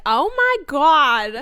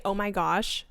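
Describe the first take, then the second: First: Loud, drawn-out New Jersey accent; higher, exaggerated New York-New Jersey accent. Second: Said in the usual way. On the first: Shown as a demonstration. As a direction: stretch it out in brash New Jersey style. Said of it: "I'll do it like that". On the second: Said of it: "sometimes I'll say".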